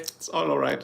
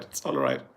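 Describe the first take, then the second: First: Said in the usual way. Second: "It's all right" dropped far lower and softer; very deep voice. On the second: Acted. Streamer repeats it to chat in a deep low rumble. Says it twice, second voice dropped.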